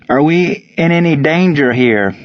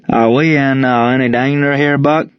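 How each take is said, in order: First: Higher, carefully separated Cajun question; slow and deliberate. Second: Put-on thick Cajun accent. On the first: Cajun player repeats his question for the team, deliberately. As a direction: repeat it deliberately so they understand. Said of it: "Ron said slowly and more deliberately". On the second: Young Cajun player asks his coach about danger, thick Cajun accent. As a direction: slur it in a Cajun Southern accent. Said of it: "Ron's Cajun Southern accent was so thick". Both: A narrator's reading.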